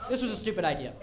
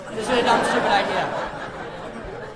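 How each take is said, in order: First: Said in the usual way. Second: Drawn-out exasperated repeat. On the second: Real, not acted. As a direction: drag out stupid idea in despair.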